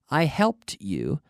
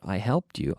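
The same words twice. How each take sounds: First: The phrase is said at a slower pace. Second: The phrase is said at a faster pace.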